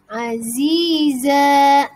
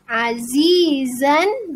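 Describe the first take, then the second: First: The word ends on a long a vowel. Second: The word ends with a final n sound.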